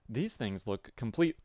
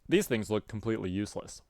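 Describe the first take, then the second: First: It is said in a put-on TT character voice. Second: It is said in the speaker's normal voice.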